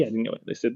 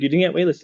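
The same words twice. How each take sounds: First: Softer, calmly granting the point; calm agreeing reply. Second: Mom's insistent retort, a bit higher and louder; mom insisting. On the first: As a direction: concede it quietly to mom. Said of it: "I agree". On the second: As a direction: push it like a disbelieving mom. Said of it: "She's like". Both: Retold or imitated.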